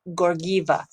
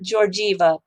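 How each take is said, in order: First: The G sounds are hard, as in Google. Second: The G sounds are soft, like a J. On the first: The speaker calls it right. "Two hard G's, like Google" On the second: The speaker calls it wrong. "not Georgieva"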